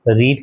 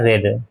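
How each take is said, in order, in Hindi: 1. स्वर लंबा है, reed जैसा। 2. स्वर छोटा है, red जैसा। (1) "रीड है तो रीड का क्या हो जाता है" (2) "स्पेलिंग सेम रहती है, प्रोनाउंसिएशन बदल जाता है"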